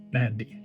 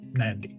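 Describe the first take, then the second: First: A faint M runs straight into the N. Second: A faint M runs straight into the N.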